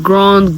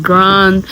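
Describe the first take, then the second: First: "grand" as "grond", rounded vowel; French-style pronunciation. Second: Said in the usual way. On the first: Shown as a demonstration. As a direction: say "grand" with an "aw" sound. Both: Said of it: "It's the same word".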